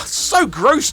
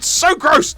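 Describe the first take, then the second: First: Said in the usual way. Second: Disgusted shout. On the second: Real, not acted. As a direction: shout it out, grossed out. Reacting to gross Joe in game.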